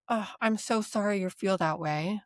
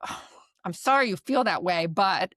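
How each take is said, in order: First: Mean every word of it kindly; genuine, compassionate. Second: Curt apology leading into a but; dismissive. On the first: Therapist showing a sincere apology to a client, gently. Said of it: "in a genuine, compassionate tone of voice". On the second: Therapist showing a dismissive apology before arguing back. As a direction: brush their feelings aside. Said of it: "If you say it in a way where". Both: Shown as a demonstration.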